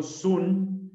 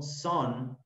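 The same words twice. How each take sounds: First: SUN said "soon", as spelled in Spanish; wrong pronunciation. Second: SUN said like "son", with an open vowel; teacher's corrected "son" for "sun"; correct pronunciation. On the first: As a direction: read "sun" with an OO vowel. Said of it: "yo no digo sun". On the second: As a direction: model "sun" slowly as "sohn". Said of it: "digo sun". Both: Shown as a demonstration.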